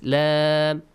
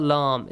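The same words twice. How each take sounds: First: "Lam" with a front "a" as in "cat"; light Lam. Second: "Lam" with a dark back vowel, like "lawm"; heavy Lam. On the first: Teacher corrects the letter sound, light front Lam. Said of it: "light sound". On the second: Teacher names the wrong sound, heavy dark Lam. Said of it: "It's not Lam". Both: Shown as a demonstration.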